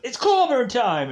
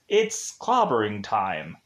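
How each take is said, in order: First: It is said forcefully, with a cool punch. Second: It is said flatly, without any punch. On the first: The speaker calls it right. "he would have pronounced it just like Ben does" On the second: The speaker calls it wrong. "he doesn't even say it in like a cool way. Like he just goes"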